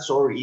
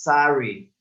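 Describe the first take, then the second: First: The first vowel is a strong, rounded O. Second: The first vowel sounds like an open A. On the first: The speaker calls it wrong. "it's not sorry" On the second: The speaker calls it right. "it's with A"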